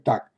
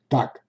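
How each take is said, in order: First: It is said sternly, in a threatening tone. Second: It is said with concern, as if raising an alarm. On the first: The speaker wants to seem menacing. "Хочешь показаться грозным, скажи «так»" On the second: The speaker draws attention to a problem. "Хочешь привлечь внимание к проблеме?"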